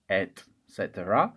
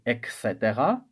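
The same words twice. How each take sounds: First: It begins with an 'et' sound, with a T. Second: It begins with an 'ek' sound, like an X. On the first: The speaker calls it right. "we read it with T, not with an X" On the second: The speaker calls it wrong. "which is wrong"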